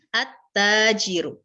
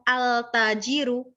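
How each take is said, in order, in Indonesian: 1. Huruf L menyatu menjadi bunyi T ganda. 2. Huruf L dilafalkan dengan jelas sebelum T. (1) "tetapi at-tajiru" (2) "Bacanya bukan al-tajiru"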